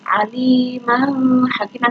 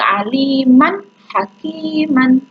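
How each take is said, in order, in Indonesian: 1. Bunyi n sebelum h tidak jelas. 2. Bunyi n sebelum h jelas. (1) "tidak boleh gitu" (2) "Maka harus jelas"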